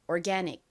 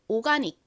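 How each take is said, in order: First: It is said with an American accent. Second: It is said with a Korean accent. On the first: "미국식 발음은" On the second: "한국식 발음은"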